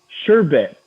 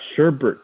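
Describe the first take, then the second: First: The second syllable has no r sound. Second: The second syllable has an r sound. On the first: The speaker calls it right. "It's sherbet. B E T" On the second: The speaker calls it wrong. "It's not sherbet though"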